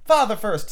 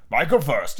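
First: Put-on high-pitched little boy answering back; suspicious child. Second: Mildly stubborn father; dogged. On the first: Suspicious son insists father goes first, wary. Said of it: "who was of a suspicious nature". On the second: Father stalls before his son, dogged. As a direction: dig in, at ordinary pitch. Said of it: "he said doggedly". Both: A narrator's reading.

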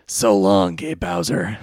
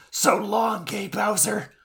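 First: Low, deep anime rival voice; Kaiba. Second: High put-on hero voice, badly faked; Kaiba. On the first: Acted. Host trying the Kaiba voice, low and deep. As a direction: drop it low for the character impression. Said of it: "let me, let me try here". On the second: Co-host as Kaiba rescuing Mokuba, high failed impression. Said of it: "I can't do the Kaiba voice".

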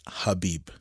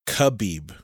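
First: "Habib" starting with an H, not a K; corrected pronunciation. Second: "Khabib" with a hard K, spoken slowly; common pronunciation. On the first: Correcting how people say the name, H-initial "Habib". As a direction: open "Habib" on a breathed H sound. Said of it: "but you actually pronounce it Habib". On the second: Showing co-host what people say, hard-K "Khabib". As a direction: say "Khabib" with a plain K up front. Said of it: "They say Khabib". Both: Shown as a demonstration.

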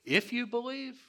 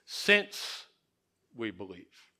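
First: "If you believe" with a high questioning lift on you; the wrong questioning reading. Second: "Since we believe" falling low and soft, settled; the correct statement reading. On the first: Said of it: "we almost read it like a question". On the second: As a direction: say "Since" and let "we believe" drop as a fact. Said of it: "So read it like this". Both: Shown as a demonstration.

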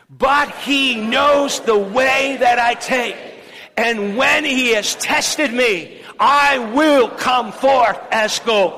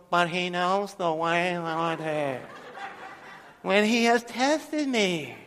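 First: Much higher and louder, slow, shouted declaration; preacher whipping the church into a loud proclamation; say it like you mean it. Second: Soft, slow, mock lifeless recitation breaking into a laugh; parodying the congregation's weak reading; half-hearted mumble. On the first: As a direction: proclaim it with full force. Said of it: "let's say it like we really mean it". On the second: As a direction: mumble it like you don't mean it. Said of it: "Nobody's doing it like that". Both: Shown as a demonstration.

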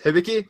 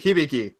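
First: "Hibiki" with short i sounds, rising; questioned pronunciation. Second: "Hibiki" with long ee sounds, hee-bee-kee; alternative pronunciation. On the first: Host checks how the guest's name is pronounced, questioned pronunciation. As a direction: say "Hibiki" as hih-bih-kee, asking. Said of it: "is that how it's pronounced". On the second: Host offers guest another way to say the name, alternative pronunciation. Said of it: "Or is it". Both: Shown as a demonstration.

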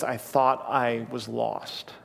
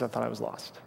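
First: Put-on sad child. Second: Put-on soft, hushed retelling of a scared boy; much softer, small broken voice; devastated child. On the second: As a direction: say it quietly like a frightened child. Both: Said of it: "he was so freaked out and sad".

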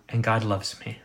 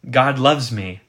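First: Intimate, personal. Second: Louder, generalized declaration; general, abstract. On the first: Preacher contrasting the personal way of saying it, intimately. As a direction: say it as a personal confession. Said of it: "very intimately and personally". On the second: Preacher contrasting the abstract way of saying it, general declaration. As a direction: state it as a broad, impersonal fact. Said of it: "in some kind of general and abstract way". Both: Shown as a demonstration.

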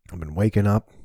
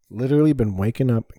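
First: Said in the usual way. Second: Literally punched higher and louder; stress on literally. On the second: Real, not acted. Telling the podcast host about his mornings, with literally stressed. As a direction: hit literally hard, the rest riding on it. Repeats it with added emphasis.

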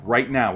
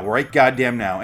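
First: Said in the usual way. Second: Louder and slower, each word pressed; insist, drawing it out; slow, louder insistence; emphatic. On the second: Real, not acted.

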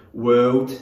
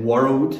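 First: "world" slowed in a Geordie accent; Newcastle accent. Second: Said in the usual way. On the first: Shown as a demonstration. Youth leader shows teens how Newcastle says it, Geordie accent. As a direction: drawl out "world" the way Newcastle folk say it. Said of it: "the way that a lot of people would say it in Newcastle". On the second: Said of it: "whenever I said world".

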